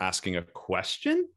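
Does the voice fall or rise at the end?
rise. The pitch rises at the end. "or are you rounding up at the end of the sentence?"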